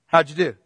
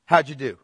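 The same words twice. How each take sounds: First: How'd punched louder on the repeat. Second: Said in the usual way. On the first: Shown as a demonstration. Teacher repeats the question to the class, louder with How'd stressed. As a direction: press How'd harder the second time.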